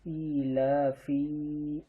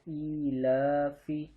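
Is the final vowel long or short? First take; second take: long; short. First: The final vowel is drawn out long. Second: The final vowel is kept short. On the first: The speaker calls it wrong. "ई ला फी ऐसे बोलना गलत है" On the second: The speaker calls it right. "फा को एक जबर जेर के हिसाब से पढ़ा"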